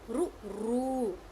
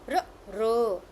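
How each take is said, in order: First: The r is followed by a u vowel. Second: The r is said with no added vowel. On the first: "some people say ru ru" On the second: "but it's a r r. Correct"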